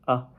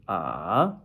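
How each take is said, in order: First: The syllable is short and light, without contour. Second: The pitch rises from middle to high. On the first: "neutral tone ... It's very light" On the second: "second tone, going up"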